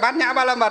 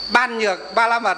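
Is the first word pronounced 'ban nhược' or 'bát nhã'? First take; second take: bát nhã; ban nhược. First: The term begins with the syllables bát nhã. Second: The term begins with the syllables ban nhược. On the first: This is the traditional Buddhist reading of the characters. "chỉ có Phật giáo chúng ta mới đọc là gì? Đọc là bát nhã" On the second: This is the standard dictionary reading of the characters. "Hai chữ đó rõ ràng là đọc là ban nhược"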